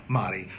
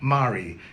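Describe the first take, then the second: First: The name is said with a Spanish pronunciation. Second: The name is said with a non-Spanish pronunciation. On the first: The speaker calls it wrong. "the same way I call Elix's sister" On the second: The speaker calls it right. "but it's actually Mari"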